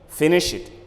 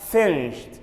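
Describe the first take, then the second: First: The ending is an extra 'id' syllable. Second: The ending is a single 't' sound. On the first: The speaker calls it wrong. "Don't say finished" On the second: The speaker calls it right. "It should be pronounced as finished, We use T sound at the end"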